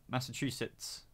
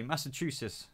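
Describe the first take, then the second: First: "Massachusetts" said softly with a crisp final "-sits"; corrected pronunciation. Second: "Massachusetts" said softly as "Massa-choo-siss"; mispronunciation. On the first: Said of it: "I can't say it properly". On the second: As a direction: drop the final t of Massachusetts, ending in "-siss", falling. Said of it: "no, Massachusetts". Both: Real, not acted.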